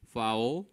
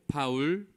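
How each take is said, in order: First: It is pronounced with English sounds. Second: It is pronounced with Korean loanword sounds. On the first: "foul, violation 이라는 발음 대신" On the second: "우리말 표기대로"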